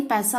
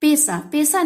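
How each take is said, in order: First: Said in the usual way. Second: पैसा said "pesa", with a close E; mispronounced vowel. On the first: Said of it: "पैसा होता है". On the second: Shown as a demonstration. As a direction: narrow the first vowel of पैसा to "pe". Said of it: "नहीं पैसा होता है".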